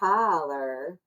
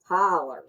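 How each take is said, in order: First: The final R is soft and weak. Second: The final R is strong and hard. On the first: The speaker calls it right. "I don't think there's a hard R" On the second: The speaker calls it wrong. "he is very much like hard R"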